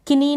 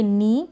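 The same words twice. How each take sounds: First: किनी with the K sounded, "ki-nee"; mispronunciation demo. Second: नी starting straight on "n"; silent K demo. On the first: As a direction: add a short "ki" before the n in किनी. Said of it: "किनी ना पढ़ें". (किनी में क का उच्चारण) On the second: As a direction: say नी as "nee", dropping the K. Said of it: "इसको हम पढ़ेंगे नी". (नी में के silent) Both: Shown as a demonstration.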